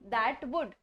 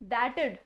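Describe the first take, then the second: First: The word 'would' is said in full. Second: Only the 'd' of 'would' remains.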